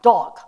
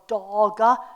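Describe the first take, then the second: First: The word is said quickly and clipped. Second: The word is said slowly, final consonant drawn out. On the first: "saying it fast" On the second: "saying it slow"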